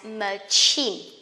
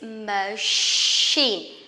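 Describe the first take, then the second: First: The middle consonant is a ch sound. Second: The middle consonant is a sh sound. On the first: The speaker calls it wrong. "A lot of people will pronounce it as machine" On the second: The speaker calls it right. "This is machine, sheen, just like shoe or shirt"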